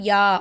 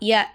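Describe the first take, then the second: First: The vowel is held long. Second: The vowel is short and quick. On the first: The letter has a standing vowel mark. "அதே கடா ஜபர் வச்சாக்கா அத நம்ம யா அப்படி சொல்லுவோம்" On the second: The letter has only a plain short vowel mark. "ஜபர் மட்டும் வச்சா ய அப்படி சொல்லுவோமா?"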